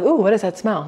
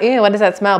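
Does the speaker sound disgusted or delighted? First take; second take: delighted; disgusted. First: It sounds delighted, as at a good smell. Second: It sounds disgusted, as at a bad smell.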